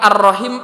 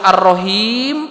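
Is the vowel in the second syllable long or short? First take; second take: short; long. First: The second vowel is kept short. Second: The second vowel is held long. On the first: It means the womb. "Ini mah ar-rahim pendek" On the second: It is one of the names of God. "ar-rahim panjang itu kan salah satu nama Allah"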